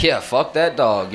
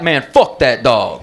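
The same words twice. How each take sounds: First: Slow, subdued mock agreement; nervous agreement. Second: Slow, emphatic acted cursing, leaning on FUCK; mock disgust. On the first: Nervous driver agreeing with the scary dog owner, subdued uneasy echo. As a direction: go along meekly, without the force of the angry owner. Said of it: "I'm nervous as fuck". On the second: Dog owner walking off looking at me, slow mock-angry disgust. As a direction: curse the dog off with drawn-out contempt. Owner storms off after fight.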